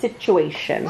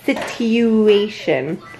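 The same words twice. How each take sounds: First: The middle consonant sounds like ch. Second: The middle consonant is a plain t sound. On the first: This is the everyday way to say it. "But the way you say it is situation" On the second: This follows the spelling. "It's a TU"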